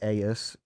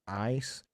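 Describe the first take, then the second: First: The vowel sounds like the word 'ace'. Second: The vowel sounds like the word 'ice'. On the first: This is how the speaker says it. "I say Aes" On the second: This is how the other person says it. "you say ice"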